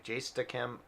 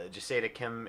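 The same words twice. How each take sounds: First: "Jasta Kim" said with two syllables, JAS-ta; "Jasta Kim" as a clean two-beat correction; corrected name. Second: "Jasada Kim" said with three syllables, ja-SA-da; "Jasada Kim" with an extra middle syllable; mispronounced name. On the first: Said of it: "I don't know how to say that exactly". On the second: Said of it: "I'm sorry, Jasta Kim". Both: Real, not acted.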